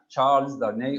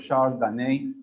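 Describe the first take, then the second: First: The name is pronounced with English sounds. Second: The name is pronounced with French sounds.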